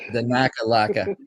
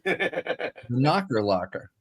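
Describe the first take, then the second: First: It is said with a strong Boston accent. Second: It is said with little Boston accent. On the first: The speaker calls it right. "There you go. that's what we want" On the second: The speaker calls it wrong. "You just killed the, the Boston accent there"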